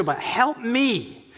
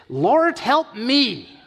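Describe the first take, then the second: First: Each word slow and deliberate; the woman insisting to Jesus, slowly; slow insistent plea. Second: High, loud cry for help; a woman crying out to Jesus, pleading; desperate plea. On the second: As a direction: call out to him for rescue. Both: Retold or imitated.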